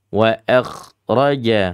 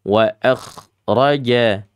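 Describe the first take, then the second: No difference in how they are said.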